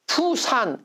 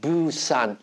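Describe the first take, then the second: First: The word begins with a p sound. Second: The word begins with a voiced b. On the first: A foreigner reads the old P spelling. "P라고 표시하면 외국인들이 이걸 읽을 때 어떻게 읽어요? 푸산 이렇게 읽어요" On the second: A foreigner reads the new B spelling. "B는 영어의 유성음이에요... 부산 이렇게 발음해야 되는"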